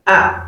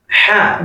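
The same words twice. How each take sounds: First: "A" with no h at the start; bare open "A", as alif or hamza; hamza pronunciation. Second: "ha" with audible friction before the vowel; "ha" shown as a separate letter sound; contrasting ha sound. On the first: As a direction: start "A" straight on the vowel. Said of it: "it's different from a". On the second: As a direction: begin "ha" on a consonant, unlike bare a. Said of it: "It's different from ha". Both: Shown as a demonstration.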